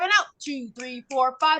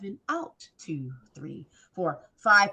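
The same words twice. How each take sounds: First: The counting is fast. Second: The counting is slow.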